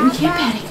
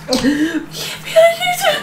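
First: Said in the usual way. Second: Very high, drawn-out tearful wail; crying in panic. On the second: Acted. Mother losing her composure adrift, crying panic. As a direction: dissolve into hammed-up sobs. Breaks down while saying it.

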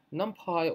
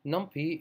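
First: "NumPy" ending like the word pie. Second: "NumPy" ending like the letter P; NumPy as num-pee. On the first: Tutor introducing the package name to learners, NumPy said num-pie. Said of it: "or as some people pronounce it". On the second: Tutor giving other people's pronunciation of the package, NumPy said num-pee. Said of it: "as some people pronounce it". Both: Shown as a demonstration.

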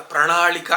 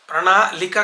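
First: ప్రణాళిక with curled-tongue ణ and ళ; careful corrective ప్రణాళిక with retroflex L. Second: ప్రణాళిక broken up with plain l, prana-lika; slow wrong pranaa-lika for ప్రణాళిక; mispronounced plain la. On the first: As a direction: say pra-NAA-Li-ka for ప్రణాళిక, retroflex. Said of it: "ఇవి కరెక్ట్గా పలకాలి". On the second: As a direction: show faulty ప్రణాళిక with dental l for ళ. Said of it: "కాదు". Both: Shown as a demonstration.

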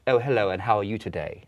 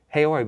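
First: Put-on mild old New York aristocrat accent, half British; lightly posh nineteenth-century New York greeting; a touch of half-British period accent. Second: Said in the usual way. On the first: Shown as a demonstration. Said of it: "period accent ... half British". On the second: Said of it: "we wouldn't just talk like".

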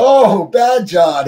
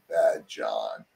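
First: Much higher, louder and drawn out very slowly; mock alarm. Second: Much lower and much softer, a dark murmur; ominous cellmate. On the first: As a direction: stretch "Oh, Bad John" up high in hammed-up alarm. Narrator reacts to Bad John. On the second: Retold or imitated. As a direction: drop the voice low and quiet like a menace. Cellmate naming his third personality.

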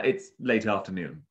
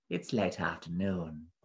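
First: Said in the usual way. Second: Low-key, quietly slippery monster; soft, slithery beast. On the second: A narrator's reading. Beast correcting the parrot, soft and slithery. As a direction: slide the words out softly. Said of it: "beast's voice was soft and slithery".

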